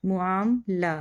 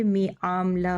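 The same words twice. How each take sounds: First: मुआमला said with mu, first vowel u; teacher models मुआमला with a clear u after the m; correct reading. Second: Teacher demonstrating the wrong vowel; wrong reading mi. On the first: Teacher showing students the right reading, careful. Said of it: "जो सही अल्फाज है वो है मुआमला". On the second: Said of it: "जो कि गलत है". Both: Shown as a demonstration.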